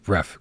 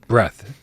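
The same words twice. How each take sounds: First: "Breath" ending in an F sound, breaf. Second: Said in the usual way. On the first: Shown as a demonstration. Reading a chat tip aloud, "Breath" said as breaf. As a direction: say "Breath" with a final F, not TH. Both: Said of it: "B R E F".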